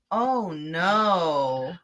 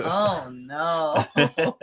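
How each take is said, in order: First: Deadpan, no emotion at all; flat, wooden line reading; flat delivery. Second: Wooden, emotionless oh no; flat delivery. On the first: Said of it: "the line delivery is so awful here". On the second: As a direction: say it completely flat, badly acted. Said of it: "it was just a flat". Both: Retold or imitated.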